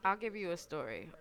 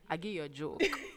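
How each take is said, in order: First: It is said in the speaker's own voice. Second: It imitates how the father sounds.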